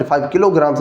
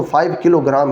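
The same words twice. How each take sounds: First: "किलोग्राम्स" with a final s sound; plural ending. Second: Said in the usual way. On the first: Shown as a demonstration. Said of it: "नहीं कहना". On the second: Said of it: "ही पढ़ना है".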